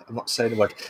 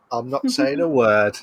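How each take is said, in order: First: Quieter repeat. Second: Said in the usual way. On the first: Pretend.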